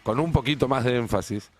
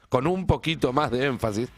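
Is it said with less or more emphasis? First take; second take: less; more. First: It is said with some emphasis. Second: It is said with stronger emphasis.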